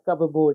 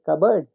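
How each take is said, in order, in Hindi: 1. यह दो शब्दों की तरह बोला जाता है, cup और board। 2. यह एक मिला हुआ शब्द बनकर बोला जाता है, kubberd। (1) "बोलो बेटा कप बोर्ड" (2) "इसको कहते हैं कबर्ड"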